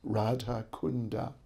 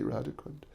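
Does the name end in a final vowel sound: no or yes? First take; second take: yes; no. First: The name ends with a final a vowel. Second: The name ends on a consonant without a vowel. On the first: The speaker calls it right. "That's actually the correct pronunciation" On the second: The speaker calls it wrong. "we say Radha Kund"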